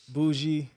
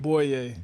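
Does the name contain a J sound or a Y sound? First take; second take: J; Y. First: The name is said with a J sound. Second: The name is said with a Y sound. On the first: The speaker calls it wrong. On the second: The speaker calls it right.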